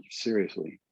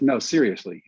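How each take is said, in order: First: Softer, sober reply; quietly earnest. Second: Mildly insistent, as the scout retold; insisting scout. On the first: Retold or imitated. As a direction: answer softly, meaning it. He answers the scout in earnest. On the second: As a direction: press for a real answer. Scout presses for a real answer.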